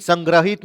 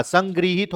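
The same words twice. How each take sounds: First: संग्रहित said with "grah", the form to avoid; name the wrong version, संग्रहित as "sangrahit". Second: संगृहित said with "gri", as "sangrihit"; correct form. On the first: Teacher naming the incorrect pronunciation संग्रहित. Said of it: "नहीं होता". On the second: Teacher giving students the correct pronunciation संगृहित. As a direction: give the right version, संगृहित with the ऋ sound. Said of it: "होता है". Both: Shown as a demonstration.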